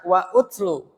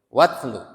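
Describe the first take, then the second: First: The 'u' after 'wa' is pronounced separately. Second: The 'u' is dropped, and 'wa' links straight on. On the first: The speaker calls it wrong. "Tidak dibaca wa utslu" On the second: The speaker calls it right. "tapi watslu"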